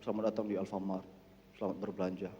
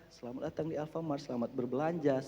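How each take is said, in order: First: The greeting sounds flat and joyless. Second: The greeting sounds cheerful and smiling.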